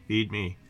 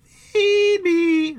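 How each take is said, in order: First: Low, soft plea from the belly; subdued low creature demand; hungry gullet voice. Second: Very high, loud drawn-out squeal; piercingly high stomach voice; weird gullet noise. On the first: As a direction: drop low and quiet for the stomach talking. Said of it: "it's in these weird noises". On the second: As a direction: squeal it like a demanding creature. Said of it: "it's in these weird noises and these weird expressions". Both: Acted.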